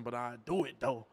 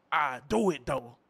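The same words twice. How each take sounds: First: Said in the usual way. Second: I do it though, slow with stress on do; mock menacing repeat; slow emphatic threat. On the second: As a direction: lean on do, slowly and pointedly.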